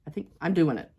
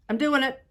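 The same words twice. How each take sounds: First: Said in the usual way. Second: Thrilled, higher and louder; excited. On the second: Real, not acted. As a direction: burst out with joy at your success. Cutting finally works.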